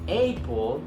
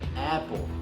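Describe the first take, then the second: First: The first vowel is an open Spanish 'a'. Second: The first vowel is an English 'a', as in cat. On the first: The speaker calls it wrong. "you will never know what it is because you say a" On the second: The speaker calls it right. "This is the right way to say apple"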